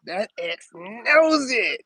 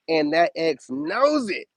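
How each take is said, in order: First: "knows" stretched out long and pitched high; emphatic repeat. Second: Said in the usual way. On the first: Real, not acted. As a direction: drive it home with a slow, swooping "knows".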